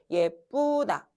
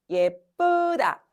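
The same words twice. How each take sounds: First: The second syllable has a rounded vowel. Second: The second syllable has an unrounded vowel. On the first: The speaker calls it wrong. "뿌로 발음하는 게 훨씬 편하다니까?" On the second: The speaker calls it right. "일 번이 편한 사람은 이제 아나운서 해야 되는 사람이야"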